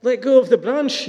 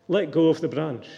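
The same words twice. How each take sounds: First: Much higher, incredulous yell; distraught yell. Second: Even, unhurried command; calm instruction. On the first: Distraught man answering the voice, yelling in disbelief. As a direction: throw the words back in high alarm. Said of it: "yelled the distraught man". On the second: Mighty voice answering the hanging man, calm instruction. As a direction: say it calmly, falling at the end. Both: A narrator's reading.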